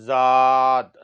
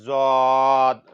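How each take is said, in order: Both takes have the same delivery.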